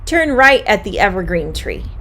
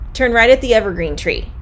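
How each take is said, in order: First: It is said at a moderate pace. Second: It is said very fast.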